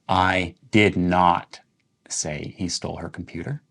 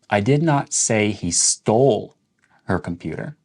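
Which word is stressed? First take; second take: did not; stole. First: The stress falls on "did not". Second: The stress falls on "stole". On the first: The statement was never made; it is false. "when you're emphasizing did not" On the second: He may have borrowed or lost it. "Let's emphasize the word stole"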